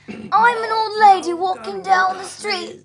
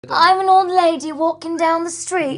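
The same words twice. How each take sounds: First: The old-lady voice is exaggerated. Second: The old-lady voice is mild.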